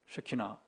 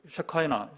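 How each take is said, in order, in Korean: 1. 가운데 음절은 'ee' 소리로 발음해요. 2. 가운데 음절은 'eye' 소리로 발음해요. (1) "옛날에 이스라엘은 쉐키나" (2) "그 발음이 이제 영어식 쉐카이나"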